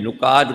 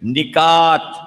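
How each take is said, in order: First: The first vowel is a 'u' sound. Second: The first vowel is an 'i' sound. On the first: The speaker calls it wrong. "नुकात गलत है" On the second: The speaker calls it right. "इसलिए हमेशा निकात बोला कीजिए"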